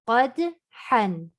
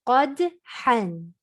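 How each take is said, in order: Both takes have the same delivery.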